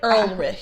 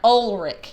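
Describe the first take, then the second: First: The first syllable has an extra R sound. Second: The first syllable has no R sound. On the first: The speaker calls it wrong. "I've always put an R in the, in the wrong place" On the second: The speaker calls it right. "Ulrich is what it is"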